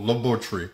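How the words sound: It is said in a British-style pronunciation. "how my brothers and sisters say on the continent of Africa and the U K"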